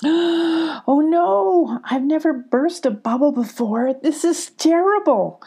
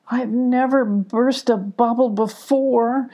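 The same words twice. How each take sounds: First: Distressed cry. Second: Slow, sheepish and upset; upset admission. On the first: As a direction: cry out in dismay at the burst bubble. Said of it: "cried Sparkle". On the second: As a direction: confess it slowly, upset. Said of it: "Sparkle admitted, very upset". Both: A narrator's reading.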